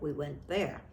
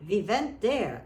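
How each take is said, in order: First: Said in the usual way. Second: Put-on went said as vent in a Russian accent, loud and high. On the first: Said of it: "instead of". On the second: Neighbour Anna remembering Russia, in a Russian accent. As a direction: imitate Anna's Russian accent, We vent there. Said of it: "speak in her accent, saying".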